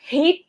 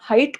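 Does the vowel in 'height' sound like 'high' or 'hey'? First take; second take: hey; high. First: The vowel sounds like the word 'hey'. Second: The vowel sounds like the word 'high'. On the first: Saying it this way helps remember the spelling. "এটা হেইট যদি উচ্চারণ করো তাহলে spelling এ ঝামেলা হবে না" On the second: This is how many people usually say it. "অনেকে এটার উচ্চারণ হাইট করি আমরা"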